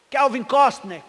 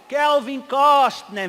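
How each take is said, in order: First: Said in the usual way. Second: "Kelvin Costner" stretched slow and loud; drawn-out name. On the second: Retold or imitated. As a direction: drag out "Kelvin Costner" proudly. Repete o nome, alongando. ("Kelvin Costner" bem arrastado e alto)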